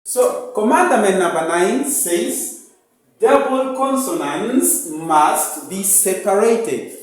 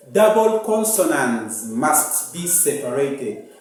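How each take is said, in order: First: "Double consonants must be separated" stated firmly; teacher reading out the ninth rule; rule announced. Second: Said in the usual way. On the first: Shown as a demonstration. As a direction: dictate the rule clearly. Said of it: "teacher states the rule". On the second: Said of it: "rule repeated for pupils".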